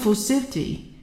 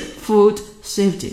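First: The two words are linked together smoothly. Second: The two words are said separately, not linked. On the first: The speaker calls it right. "大家听到是food safety" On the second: The speaker calls it wrong. "我们不是food safety 大家听不到这样"

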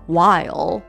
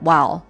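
First: The word is said fully and roundly. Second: The word is clipped short and reduced. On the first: "这么圆浑这么整的一个字" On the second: "就变成这样了"

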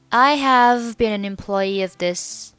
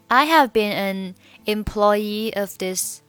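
First: The words run together with linked sounds. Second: The words are said separately without linking.

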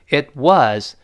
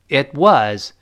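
Both takes have the same delivery.

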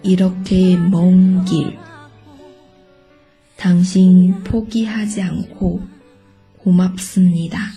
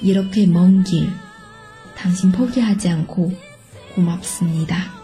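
First: It is read slowly. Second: It is read a bit faster.

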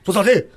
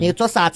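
First: It is said in a blunt Chongqing accent. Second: It is said in a winding Chengdu accent.

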